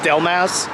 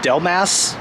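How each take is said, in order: The two takes are said the same way.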